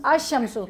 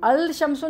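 First: अशम्सु with no L, straight into SH; silent lam. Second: अल शम्सु with the L sounded; wrong pronunciation. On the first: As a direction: say अशम्सु, merging the article into sheen. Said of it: "लाम की आवाज़ जाहिर नहीं होती". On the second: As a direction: say अल शम्सु, pronouncing the lam before sheen. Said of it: "नहीं बोलेंगे". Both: Shown as a demonstration.

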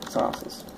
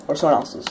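First: Breathy whispered aside; whispered repeat. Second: Said in the usual way. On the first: Shown as a demonstration. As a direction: drop to a sly whisper.

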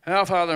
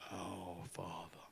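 First: Our Father read out fast and loud; quick loud reading. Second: Oh, Father said much softer and slowly. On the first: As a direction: rattle it off with no thought. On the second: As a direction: linger on it as if for the first time. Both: Retold or imitated. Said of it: "you want to say it slower".

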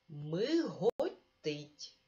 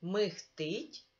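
First: Миготить stretched out very slowly, every syllable clear; slow careful form. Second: Михтить with г voiced as х, quickly; quick михтить as it sounds in speech; spoken form. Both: Shown as a demonstration. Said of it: "Наприклад".

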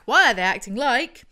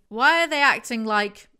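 First: Loud question rising at the end, inviting answers; prompting question. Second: Loud, baffled, exasperated ask; exasperated question. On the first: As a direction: leave it hanging for the audience to finish. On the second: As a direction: throw the question out in disbelief. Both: Real, not acted. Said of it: "Audience, fill in the blank".

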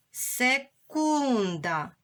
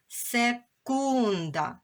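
First: Секунда drawn out slowly, each sound clear; slow dictation. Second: Секунда said slowly, sounds apart; slow clear reading. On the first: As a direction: stretch Секунда for pupils to hear. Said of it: "Будь ласка, поділили це слово". (повільно: секунда) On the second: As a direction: read секунда slowly once more. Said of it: "ми отримали слово". (повільно вимовлене слово) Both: Shown as a demonstration.

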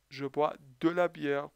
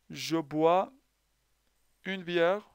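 First: De la bière, de pressed and held; stress on de. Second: Said in the usual way. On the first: Shown as a demonstration. Teacher giving the right article, stressing de. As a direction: dwell on de before la bière.

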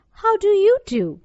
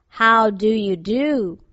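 First: High, lifted, louder return greeting; polite little girl. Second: Slow, drawn-out storybook scarecrow; scarecrow's greeting. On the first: Dorothy returning the scarecrow's greeting, politely and high. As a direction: raise the pitch and politely ask back. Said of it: "replied Dorothy politely". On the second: Scarecrow greeting the girl, slow and deliberate. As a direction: stretch out each word of the greeting. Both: A narrator's reading.

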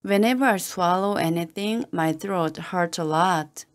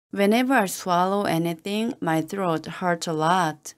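The two takes are said the same way.

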